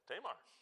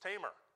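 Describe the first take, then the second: First: The name does not sound like 'tamer'. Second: The name sounds like the word 'tamer'. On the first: The speaker calls it wrong. "I've been pronouncing this woman's name Tamar for most of my adult life" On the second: The speaker calls it right. "Like, that dog is tamer than this dog"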